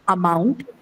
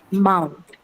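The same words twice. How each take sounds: First: "amount" with a clearly sounded opening "a"; over-pronounce the first syllable of "amount"; wrong-example "amount", the "a" given full value, ending on a rise; full first vowel. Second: "mount" with the opening uh almost silent; schwa barely audible. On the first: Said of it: "not amount". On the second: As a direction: swallow the first vowel, land on "mount". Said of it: "It's barely audible". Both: Shown as a demonstration.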